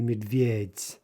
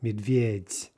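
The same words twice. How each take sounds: First: The word ends with a voiceless soft t. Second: The word ends with a voiceless soft t.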